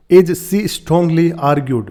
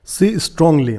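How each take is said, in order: First: "As she strongly argued" read very slowly, word by word; slow dictation-style read; slow quoting. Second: Said in the usual way. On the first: Shown as a demonstration. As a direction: drag each word out for learners. Teacher reads article phrase.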